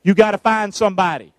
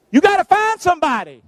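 First: Said in the usual way. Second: "gotta" pushed higher, more insistent; pressing repeat. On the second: Acted. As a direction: push them to get moving. Repeated urging to congregation.

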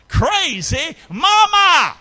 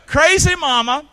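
First: Slow, loud, high drawn-out shout; broad singsong kids theatre. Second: Loud call. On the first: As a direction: stretch it out and shout it to the crowd. Shouted slow title line. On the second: Repeat of title line. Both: Acted.

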